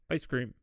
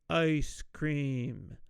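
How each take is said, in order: First: It is said at an ordinary talking speed. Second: It is said slowly and drawn out. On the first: The speaker calls it wrong. "just say ice cream" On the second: The speaker calls it right. "Say it slower, like"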